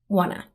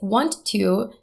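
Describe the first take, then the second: First: The words blend into one short form. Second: Each word is pronounced separately and fully. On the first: "turns into wanna" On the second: "the phrase want to"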